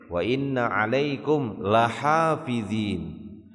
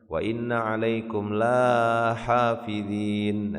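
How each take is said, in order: First: The vowel after the l is short. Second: The vowel after the l is long. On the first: It stresses that there truly are guardians. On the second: It denies that there are any guardians.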